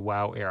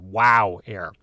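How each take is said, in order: First: It is said in a plain, flat voice. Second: It is said with an excited, energetic voice. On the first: The speaker calls it wrong. "I can't just say WOW Air" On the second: The speaker calls it right. "I've got to say WOW Air. ... you'd see my eyes pop out when I say WOW"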